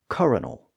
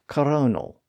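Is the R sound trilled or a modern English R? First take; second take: modern R; trilled. First: The R sound is a modern English R. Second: The R sound is trilled. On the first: This is the later pronunciation after English R changed. "English probably had the modern R sound in that position" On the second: This is the older pronunciation borrowed from French. "French also had a trilled R at the time"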